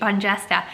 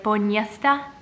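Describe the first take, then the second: First: The middle consonant is said hard. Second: The middle consonant is said soft. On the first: "pronouncing it like somebody from hillbilly country" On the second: "it would be a soft J like Boniesta"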